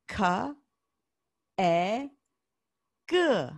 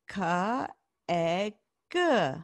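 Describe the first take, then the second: First: The letters are said slowly and kept apart. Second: The letters are said quickly and run together. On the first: "Say it with me" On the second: "Say it faster"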